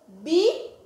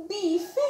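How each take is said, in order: First: Bifé split by a long pause, loud bi; syllable by syllable. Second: Bife blended into one word, higher; word joined up. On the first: Teacher sounding out for children, Bifé in two separate pieces. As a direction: punch bi, wait, then an open fé. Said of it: "eu tenho duas sílabas". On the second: Teacher announcing the formed word, bife said whole. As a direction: join bi and fe with no gap. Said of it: "Formei a palavrinha". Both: Shown as a demonstration.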